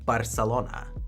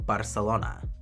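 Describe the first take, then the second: First: The c is said with an s sound. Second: The same.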